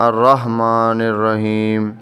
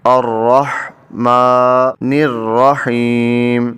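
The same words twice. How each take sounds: First: الرحمن الرحیم said plainly with no breath on the ha; flat, quick, without the breathy throat sound; wrong way. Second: الرحمٰن الرحیم recited slowly with a breathy throat ha; slow, careful recitation with the ha breathed out; correct tajweed. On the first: Teacher showing students the wrong reading of الرحمن الرحیم. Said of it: "اس کو یوں نہیں پڑھنا". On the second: Teacher showing students the right reading of الرحمٰن الرحیم. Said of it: "ساتھ اس میں سانس کی آواز ہے". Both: Shown as a demonstration.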